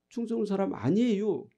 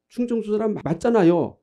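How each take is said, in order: First: Mock Chungcheong-accented denial, falling at the end; Chungcheong dialect denial. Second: Said in the usual way. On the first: Preacher acting out a Chungcheong native denying their origin, in dialect. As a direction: softly insist in a Chungcheong accent. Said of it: "당신 충청도 사람 맞지요?". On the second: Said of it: "그런 경우라 그 말이에요".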